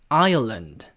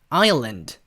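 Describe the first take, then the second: Both takes have the same delivery.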